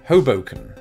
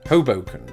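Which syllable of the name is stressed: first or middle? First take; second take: first; first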